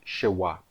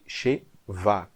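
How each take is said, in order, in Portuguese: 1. A consoante do meio soa como w. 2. A consoante do meio soa como v. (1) "em aramaico ... será chamada de Shewa" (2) "em hebraico eu chamava essa letra aqui, o Shevá, de Shevá, com um V aqui, não um W"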